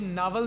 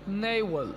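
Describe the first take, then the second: First: The first vowel sounds like 'ah'. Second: The first vowel sounds like 'ay'. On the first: The speaker calls it wrong. "ये नावल नहीं होगा" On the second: The speaker calls it right. "इसको सही बोलने का तरीका ये है नेवल"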